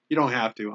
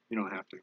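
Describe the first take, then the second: First: Playful mock request, full voice; joking ask. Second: Much softer, honest take-back; really mean it this time, quietly; sincere reassurance. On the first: Teasing viewers to fund the cheap poll, playful. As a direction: tease them about the money. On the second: Real, not acted. Reassuring viewers after a joking ask, softly. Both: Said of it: "I'm kidding".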